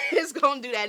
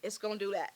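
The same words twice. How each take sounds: First: Laughing as she says it; louder, breaking into a laugh. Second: Said in the usual way. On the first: Real, not acted. Repeats the line laughing.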